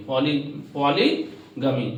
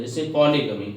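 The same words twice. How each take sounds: First: "poly" said alone, then "polygamy" slowly; slow teacher split, "poly" first, then "polygamy"; split into parts. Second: Said in the usual way. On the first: Shown as a demonstration. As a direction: break "polygamy" apart slowly for the class. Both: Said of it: "poly अलग है, गमी अलग है".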